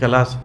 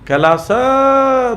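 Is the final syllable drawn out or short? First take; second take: short; drawn out. First: The last syllable is short and unstressed. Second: The last syllable is drawn out and stressed. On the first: "Kailash होता ना ऐसा" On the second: "लंबा, तो सा पर जोर हो रहा है"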